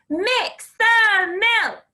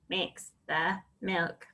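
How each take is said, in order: First: The words are shouted loudly. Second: The words are said in a robot voice. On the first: "Can you shout it?" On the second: "Can you robot it?"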